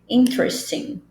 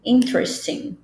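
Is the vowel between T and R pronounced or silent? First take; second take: silent; silent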